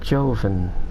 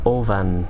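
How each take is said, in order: First: The name begins with a J sound. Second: The name begins with a vowel sound.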